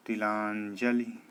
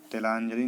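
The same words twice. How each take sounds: First: तिलांजलि slowly, with a clear "ti"; correct pronunciation. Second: तिलांजलि opened as "te-laanjali"; wrong pronunciation. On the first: Teacher answers what is right, slow तिलांजलि. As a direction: stretch "laan" in तिलांजलि. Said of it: "क्या होता है?". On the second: Teacher voices the error, quick तिलांजलि. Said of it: "नहीं होता". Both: Shown as a demonstration.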